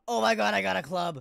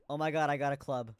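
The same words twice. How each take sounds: First: Loud and higher, thrilled; excited shout. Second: Said in the usual way. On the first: Real, not acted. Excited repeat of find.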